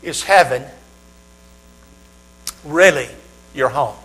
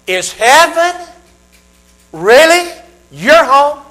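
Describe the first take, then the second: First: Low "Is heaven ... really ... your home?" with long pauses and falling ends; grave, measured question. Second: High, loud "Is heaven ... really ... your home?" with rising, stretched phrases; insistent, probing question. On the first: Same question posed two different ways. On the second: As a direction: challenge them with "Is heaven really your home?", each part pitched up. Same question posed again, far higher. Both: Shown as a demonstration.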